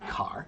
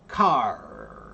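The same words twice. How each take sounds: First: The R sound is short and quick. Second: The R sound is stretched out long. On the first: The speaker calls it wrong. "don't say car" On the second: The speaker calls it right. "Pull the word and practice that sound longer"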